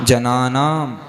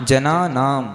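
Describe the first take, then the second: No difference in how they are said.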